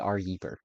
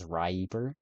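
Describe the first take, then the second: First: It starts with the letter R, then 'Yeeper'. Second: It starts with 'Rye', then 'eeper'. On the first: The speaker calls it wrong. "no one pronounces my name correctly. They all call me" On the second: The speaker calls it right. "the intended pronunciation is Ryeeper"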